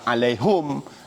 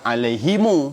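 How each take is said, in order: First: The word ends in hum with no final vowel. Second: The word ends in himu with an added vowel. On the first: Another group of Arabs reads it this way. "ada sebahagian baca alaihum" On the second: A third group of Arabs reads it this way. "ha dhamir belakang tu dia baca alaihimu"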